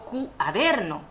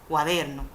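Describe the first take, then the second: First: The u and a are split into separate syllables. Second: The u and a blend into one syllable. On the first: The speaker calls it wrong. "no digo cuaderno" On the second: The speaker calls it right. "sino cuaderno"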